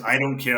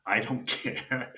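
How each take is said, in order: First: Louder, quicker retold dismissal; retold brush-off. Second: Drawn out at half pace, laughing; dazed retold indifference. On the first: Hurt player telling teammate he is way off, loud brush-off. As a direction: say it straight out, louder. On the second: Hurt player answering teammate about the score, slow dazed indifference. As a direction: stretch it out slowly with a laugh. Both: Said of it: "I didn't say it in that".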